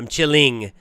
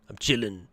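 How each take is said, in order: First: The final g sound is pronounced. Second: The final g sound is dropped.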